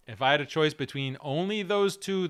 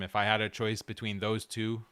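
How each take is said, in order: First: "only those two" said louder and higher; stress on only those. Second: Said in the usual way. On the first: Shown as a demonstration. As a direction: lean hard on "only" and "those".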